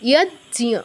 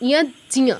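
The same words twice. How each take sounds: Both takes have the same delivery.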